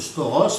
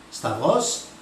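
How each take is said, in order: First: The middle is said with an 'au' vowel sound. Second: The middle is said with a 'v' consonant. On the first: This is how others commonly say it. The speaker calls it wrong. "Alors ils prononcent mal d'ailleurs la plupart du temps, ils prononcent stauros" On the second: This is the correct Greek pronunciation. The speaker calls it right. "la bonne prononciation c'est stavros"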